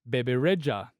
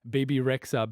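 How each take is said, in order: First: The name is said with an Albanian pronunciation. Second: The name is said with an English pronunciation. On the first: "I pronounce it the Albanian way" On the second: "you hear of artists like"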